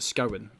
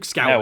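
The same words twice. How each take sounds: First: The first vowel does not rhyme with cow. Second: The first vowel rhymes with cow. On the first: The speaker calls it wrong. "The amount of people that pronounce it Scowen, it does my nut" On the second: The speaker calls it right. "like cow, Cowen"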